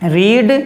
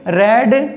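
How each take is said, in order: First: The vowel is long, like 'reed'. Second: The vowel is short, like 'red'. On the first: It is the present form of the verb. "रीड की third form क्या होती है?" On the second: It is the past participle of the verb. "Spelling वही है मगर pronunciation यानी उच्चारण अलग है"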